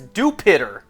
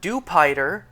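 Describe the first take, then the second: First: The name sounds like the word 'Jupiter'. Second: The ending sounds like the word 'spider'. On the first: "if you pronounce Dewpider as Jupiter" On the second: "not Dewpider, the Pokemon based on a spider"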